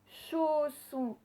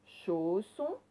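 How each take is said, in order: First: CHAU in "Chausson" high and drawn out; stress on first syllable. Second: Said in the usual way. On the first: Shown as a demonstration. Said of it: "on l'entendait dans la première syllabe". (« Chausson » en allongeant CHAU) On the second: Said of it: "où vous entendez le son O".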